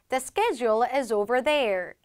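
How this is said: It is said in an American accent.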